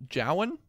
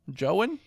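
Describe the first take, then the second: First: "Jowan" as JOW-an, rhyming with "cow"; "Jowan" said JOW-un, unsure; first pronunciation try. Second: "Jowan" as JOH-an, with a long O; "Jowan" said JOH-un, unsure; second pronunciation try. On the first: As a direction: try "Jowan" with an OW vowel, questioning. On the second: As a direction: try "Jowan" like "Joe-an", questioning. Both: Real, not acted. Trying two pronunciations of a name.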